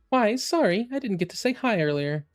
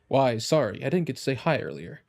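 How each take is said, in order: First: It is said in a high voice. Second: It is said in a lower voice.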